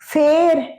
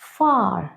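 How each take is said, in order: First: The vowel is like the one in bet. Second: The vowel is like the one in father. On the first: The speaker calls it wrong. "ফের এরম নয় কিন্তু" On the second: The speaker calls it right. "এদের pronunciation আ"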